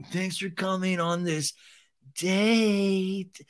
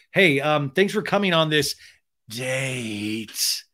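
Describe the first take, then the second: First: Mock creepy Schwartz, date drawn out; creepy imitation. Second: Lightly creepy drawn-out invite; creepy imitation. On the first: Imitating Schwartz greeting his date, mock creepy. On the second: Shown as a demonstration. Imagining himself asking, lightly creepy tone. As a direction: make it sound a touch creepy. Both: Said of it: "I'm even doing it creepy on the imitation".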